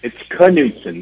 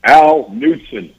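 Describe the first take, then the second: First: Imitated correction, higher, "Knutson" with a sounded K before the N; K pronounced. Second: Imitated name call, "Knutson" said with no K sound, drawn out; roll-call shout, silent K. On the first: Al corrects the tryout official, sounding the K in "Knutson". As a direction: say "Knutson" as kuh-NOOT-son. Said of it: "The K is pronounced". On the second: Tryout official calls Al's name, K in "Knutson" left silent. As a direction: call out "Knutson" slowly and higher, starting straight on the N. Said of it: "comes up to call Al's name".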